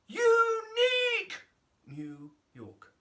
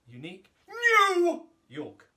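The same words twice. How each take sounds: First: The word unique is exaggerated. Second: The word new is exaggerated.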